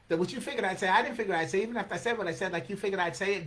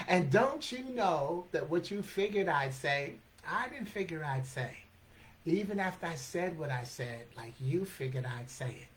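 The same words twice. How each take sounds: First: Rapid-fire tongue-twisting verse; rapid recital. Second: Measured, phrase-by-phrase verse; slow motion. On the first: Acted. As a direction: rattle off the tangled line in one breath. Fast take, later replayed slowly. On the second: Shown as a demonstration. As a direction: take the tangled line apart slowly, easing down at the end. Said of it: "And in slow motion".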